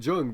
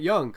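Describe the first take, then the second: First: The name begins with a J sound. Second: The name begins with a Y sound. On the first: This is the name used dismissively about this movie. The speaker calls it wrong. "here I'm fucking calling it Jung because fuck this" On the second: This is the name used in a serious discussion. The speaker calls it right. "sure, I'd call it Young"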